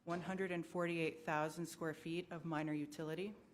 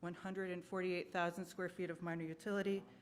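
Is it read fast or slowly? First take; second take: slowly; fast. First: It is read at a slow pace. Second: It is read at a fast pace.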